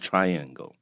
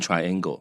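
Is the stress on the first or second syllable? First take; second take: first; second. First: The stress is on the first syllable. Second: The stress is on the second syllable. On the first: The speaker calls it right. "重音在前面啊，其实 triangle" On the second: The speaker calls it wrong. "很多人会念 triangle 啊"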